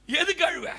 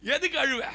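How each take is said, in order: First: எதுக்கு pushed high and loud; louder rebuke. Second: Said in the usual way. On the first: Acted. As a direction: throw the question harder. Preacher repeats the rebuke. (எதுக்கு என்ற சொல்லை உயர்த்தி உரக்க கேள்)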